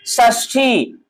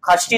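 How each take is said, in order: First: The word begins with a 'sh' sound. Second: The word begins with a 'kh' sound. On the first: The speaker calls it right. "यहाँ पे ख का उच्चारण नहीं होगा" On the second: The speaker calls it wrong. "षष्ठी खष्ठी नहीं होता है।"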